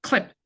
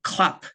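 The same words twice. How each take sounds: First: "clap" turned into "clip", small short vowel; small I sound. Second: "clap" with a big, open A; big A sound. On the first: Teacher showing the smaller sound, "clap" said as short "clip". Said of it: "약간 작은 소리가 되게 되면". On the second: Teacher showing the big sound of a clam snapping shut, "clap" with an open A. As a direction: open the vowel wide in "clap". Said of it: "A 사운드는 크게 소리가 나는 것이고". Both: Shown as a demonstration.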